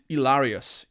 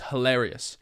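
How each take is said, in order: First: The word starts without an H sound. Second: The word starts with a clear H sound. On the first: "she cannot pronounce the sound H. So she'll say" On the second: "instead of saying"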